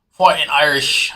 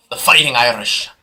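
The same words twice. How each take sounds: First: A weak, slowed stab at an Irish accent; half-hearted mock Irish brogue; bad Irish accent. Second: Said in the usual way. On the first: Shown as a demonstration. Hyping the Notre Dame squad to viewers, in a bad Irish accent. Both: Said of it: "I can't do a good Irish accent".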